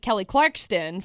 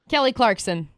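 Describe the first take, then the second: First: The surname is said with an extra t. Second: The surname is said without an extra t. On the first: The speaker calls it wrong. "it just comes out as [name] for some reason" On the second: The speaker calls it right. "when you nail it"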